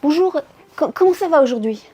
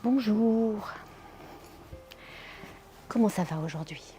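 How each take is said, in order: First: It sounds hurried and rushed. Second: It sounds calm and kind.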